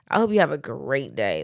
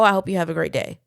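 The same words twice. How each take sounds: First: It sounds snide and mean. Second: It sounds warm and sincere. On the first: The listener heard it as an insult. "you could have heard it with" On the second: The speaker meant it kindly. "I could be like, "Oh"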